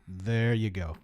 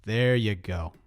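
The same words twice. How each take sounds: The two takes are said the same way.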